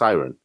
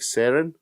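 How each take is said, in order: First: It sounds like the English word siren. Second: It sounds different from the English word siren. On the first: This is how the dubbed version says it. "They pronounce it in the English dub as Siren" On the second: This follows how the name is written. "the way it's written is more like Seren"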